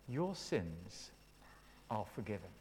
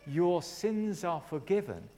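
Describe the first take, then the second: First: Very soft, low pronouncement with pauses; respectful, not condescending. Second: Slow, measured declaration; loving pronouncement. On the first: Acted. Jesus forgiving the sick man, gentle and respectful. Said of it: "treated people with respect, not condescending". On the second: Retold or imitated. Preacher retelling Jesus forgiving the man, loving declaration. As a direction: declare it slowly, with love. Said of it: "poured his love into his life and said".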